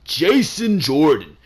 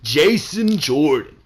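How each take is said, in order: First: The name is said flat and solemn, like an announcement. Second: The same.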